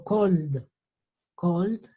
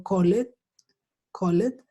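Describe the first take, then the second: First: "cold" in one syllable, the model for "called"; careful model "cold", L running straight into D; D ending. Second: "called" in two syllables, "co-let"; Spanish-style wrong ending. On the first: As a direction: say "cold" with no E before the final D. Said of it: "la pronunciación del E D va a ser". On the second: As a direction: say "called" as written, with the E sounded. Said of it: "Entonces ya no digo". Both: Shown as a demonstration.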